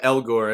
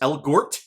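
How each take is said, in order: First: The name ends without any t sound. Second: The name ends with a clear t sound. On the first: The speaker calls it right. "I'm gonna stick with Elgor" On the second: The speaker calls it wrong. "Do I pronounce the T on it?"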